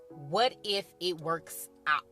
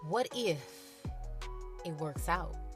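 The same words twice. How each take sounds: First: It is said in a plain, matter-of-fact way. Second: It is said slowly with dramatic, suspenseful delivery.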